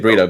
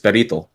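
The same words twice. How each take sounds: First: The word is said with an American pronunciation. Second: The word is said with a Spanish pronunciation. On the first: "the American accent way of saying it" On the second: "In Spanish, it's burrito"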